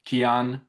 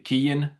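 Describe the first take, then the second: First: The name is said the Persian way. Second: The name is said the Irish way. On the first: "Iran we call it Kian" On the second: "if you're Irish, it's a, they say Kian"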